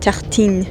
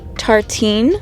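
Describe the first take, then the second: First: It is said with a French pronunciation. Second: It is said with an English pronunciation. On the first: "I'll tell you the real pronunciation" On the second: "It's called Tartine"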